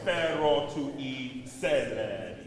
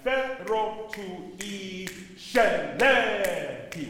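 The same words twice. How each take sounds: First: The sc is said as a plain s. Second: The sc is not said as a plain s. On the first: The speaker calls it right. "Just set, right?" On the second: The speaker calls it wrong. "Am I saying that right?"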